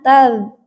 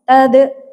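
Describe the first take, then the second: First: The final consonant is held without a bounce. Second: The final consonant bounces with a release. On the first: The speaker calls it right. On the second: The speaker calls it wrong. "tidak tadh"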